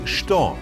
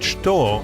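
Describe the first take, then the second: First: The word is reduced to sho or cho. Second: The word is said in full, as chto. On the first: "sho or cho" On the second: "instead of saying что"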